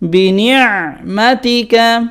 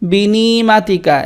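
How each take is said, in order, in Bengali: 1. 'ni'-এর পরের গলার ধ্বনিটি চাপা হয়। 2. 'ni'-এর পরের গলার ধ্বনিটি ছাড়া হয়। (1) "চেপে বলতে হবে" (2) "অনেকেই বলে বিনিমাতিকা"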